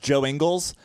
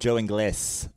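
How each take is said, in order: First: The surname is said in a plain English style. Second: The surname is said in a Spanish style. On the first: This is the name's real pronunciation. "I know it's Joe Ingles" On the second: The speaker jokingly gives him a Latin name. "I insist on calling him Joe Ingles"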